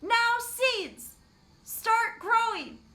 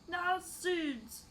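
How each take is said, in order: First: It is shouted. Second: It is said at a normal volume.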